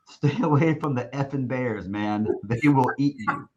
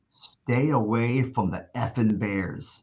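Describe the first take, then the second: First: Quoting the coach's warning through a laugh; retelling the Bears warning, laughing; laughing while quoting. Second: Slow, deliberate warning imitating the coach; coach's dead-serious slow warning about the Bears; slow mock warning. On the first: Retold or imitated. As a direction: chuckle through "Stay away from the effing Bears". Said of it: "his main word of emphasis". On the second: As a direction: lean on "stay away from the effing Bears" slowly, word by word. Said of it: "word of emphasis".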